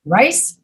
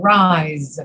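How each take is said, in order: First: Rice rising, ending in a hissed S; careful Rice, S not Z; voiceless S. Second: Long rise, Z not S; voiced Z. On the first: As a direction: say Rice slowly with an unvoiced final S. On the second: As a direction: rise drawn out and falling into a buzzing Z. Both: Shown as a demonstration. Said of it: "these words that have the Z sound".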